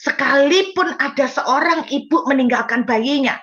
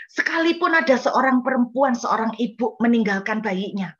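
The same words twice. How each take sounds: First: "Sekalipun" punched louder and higher; emphatic reading. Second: Said in the usual way. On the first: Shown as a demonstration. Preacher repeating Isaiah's verse to the congregation, emphatic. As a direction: proclaim the verse with force, stress on "Sekalipun". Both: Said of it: "ayat itu bilang begitu".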